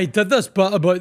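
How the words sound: It is spoken in a Scottish accent.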